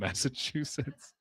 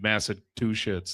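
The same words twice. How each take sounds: First: The word is pronounced in the usual standard way. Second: The word is pronounced in an odd, nonstandard way. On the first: The speaker calls it right. "instead of Massachusetts" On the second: The speaker calls it wrong. "she said Massachusetts"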